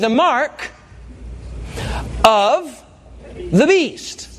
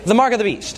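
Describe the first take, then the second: First: It is said slowly with words kept separate. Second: It is run together quickly like one word.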